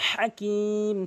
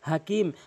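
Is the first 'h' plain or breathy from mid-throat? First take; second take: mid-throat; plain. First: It starts with a breathy 'h' from mid-throat. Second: It starts with a light, plain 'h' sound. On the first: The speaker calls it right. "হা অবশ্যই হলকের মাঝখান থেকে উচ্চারণ করবেন" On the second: The speaker calls it wrong. "অধিকাংশ লোক ভুল করে বলে হাকিম"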